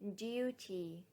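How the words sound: It is said with a British accent. "British speakers say"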